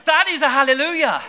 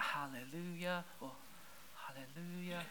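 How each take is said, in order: First: High and loud, bursting with joy; full-voiced hallelujah. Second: A barely-there, softer hallelujah with a laugh; feeble hallelujah. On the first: Preacher showing the right praise, loud and bursting. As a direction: let it burst out of you. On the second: Preacher showing the wrong kind of praise, feeble and soft. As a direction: say it like you hardly mean it. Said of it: "is not a hallelujah". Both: Shown as a demonstration.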